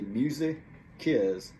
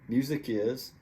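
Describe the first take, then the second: First: The phrase is said slowly. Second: The phrase is said at normal speed.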